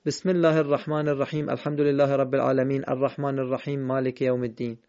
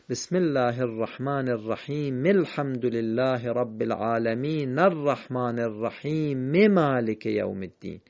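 First: One unbroken hurried run, الرحیم and العالمین ending on bare consonants; no pauses, no final vowels on الرحیم or العالمین; wrongly linked, endings silent. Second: Measured chain, الرحیم as "rahimi" and العالمین as "alamina"; linked with final vowels. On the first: Teacher showing what is wrong, pauseless run with vowelless الرحیم and العالمین. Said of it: "اما اگه وقف نکردیم نمیشه بگیم".

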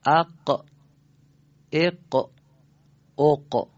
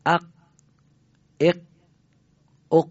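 First: "اق" with the qaf released in a short echoing bounce; qaf with qalqala. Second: "اق" cut off dead, the qaf stopped with no release; qaf without qalqala. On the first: Teacher shows students the clearer qaf, "اق" with a bounced release. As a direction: say "اق" loudly, then let the qaf pop free in a small extra puff of voice. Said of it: "اگه ما قاف رو یه تکون بدیم". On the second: Teacher shows students an incomplete qaf, "اق" stopped without release. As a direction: say "اق" with the final qaf held shut in the throat, no bounce. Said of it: "ولی صداش رسا نبود، بیان کامل نشد".

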